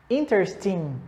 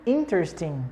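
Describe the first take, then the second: No difference in how they are said.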